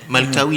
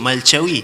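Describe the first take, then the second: First: The middle consonant is a plain k sound. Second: The middle consonant is a ch sound.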